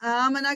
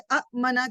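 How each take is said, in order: First: One long vowel flows smoothly without any catch. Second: Two short vowels are split by a glottal catch. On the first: "उन्होंने आ मना कर दिया, मद लगा दी" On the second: "बजाय इसके कि वो ये करते कि अ मना करते"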